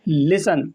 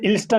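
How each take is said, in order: First: The t sound is left silent. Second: The t sound is clearly pronounced. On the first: The speaker calls it right. "इसका सही pronunciation जो होता है" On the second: The speaker calls it wrong. "ये लिस्टन नहीं होता है"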